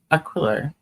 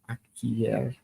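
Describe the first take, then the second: First: The double L is said as an L sound. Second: The double L is said as a Y sound.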